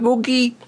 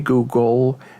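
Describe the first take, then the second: First: The word ends with a 'gee' sound. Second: The word ends with a clear 'gul' sound. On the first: The speaker calls it wrong. "the old woman just says, "Googie" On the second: The speaker calls it right. "helping her pronounce the word Google"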